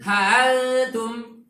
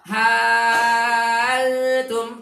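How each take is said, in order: First: The hamzah is softened between glottal stop and vowel. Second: The hamzah is replaced by a long vowel. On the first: "Boleh tashil" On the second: "Ibda coba"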